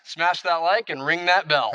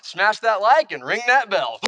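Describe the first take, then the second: First: It is said plainly, not cheesy. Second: It is said in a cheesy car-salesman manner.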